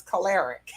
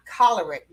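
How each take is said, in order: First: Choleric said "kuh-LAIR-ik"; mispronounced choleric. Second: Choleric said "KOL-er-ik"; correct pronunciation. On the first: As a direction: stress the second syllable of choleric, "kuh-LAIR-ik". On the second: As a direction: stress the first syllable of choleric, "KOL-er-ik". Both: Retold or imitated. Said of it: "the word is not choleric".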